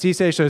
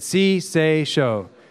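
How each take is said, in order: First: It is said very fast. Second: It is said at a normal pace.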